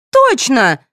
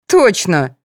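First: Put-on high-pitched girlish squeak; high, piping little exclamation; squeaky. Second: Mildly astonished exclamation; pitched-up surprised agreement; gasped realization. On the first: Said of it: "пропищала Соня". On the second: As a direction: let it out as a sudden realization. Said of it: "ахнула Вера". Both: A narrator's reading.

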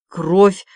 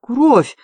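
First: Mildly sombre one-word verdict; understated grim pronouncement; gloomy. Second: Higher, mildly moaning exclamation; theatrical little moan of horror; groaned cry. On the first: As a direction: state it darkly, without a cry. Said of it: "мрачно сказал артиллерист". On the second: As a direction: groan the word in dismay. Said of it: "застонал Август". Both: A narrator's reading.

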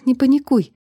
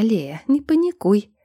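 First: Louder, tense self-calming; steady yourself, urgently; telling herself. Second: Slow, taunting mimicry; mocking mimic. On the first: Girl calming herself in panic, tense. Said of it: "успокаивала себя я". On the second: Spirit mimicking the girl, slow mockery. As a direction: mimic her words to mock her. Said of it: "передразнил меня голос". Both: A narrator's reading.

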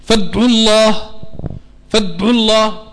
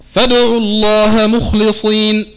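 First: فادعوا with the dal fully stopped, no echo, breath trapped; dead sukoon dal. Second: Reciting فادعوا slowly with the dal released in a light echo; Quranic recitation with qalqala. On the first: Teacher demonstrates the wrong dead-sounding sukoon reading. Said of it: "بنقراها بالسكون". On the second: Teacher recites the verse to show qalqala, slow and measured. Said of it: "مثال". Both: Shown as a demonstration.

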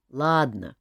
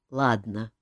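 First: Grumbled "Ладно" with a falling end; a reluctant, grumbling "Ладно". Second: "Ладно" said low and resigned with a sigh; king gives in and sighs. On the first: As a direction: jester grudgingly agrees, grumbling. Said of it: "проворчал Жак". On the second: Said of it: "вздохнул король". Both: A narrator's reading.

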